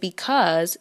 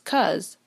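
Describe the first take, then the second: First: The word is said in its full form. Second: The word is said in a shortened form. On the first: "Instead of saying because" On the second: "shorten the word into the utterance cuz"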